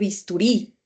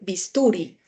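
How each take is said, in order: First: The stress falls on the last syllable. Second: The stress falls before the last syllable. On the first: The speaker calls it right. "uno dice" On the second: The speaker calls it wrong. "uno en la vida cotidiana no dice"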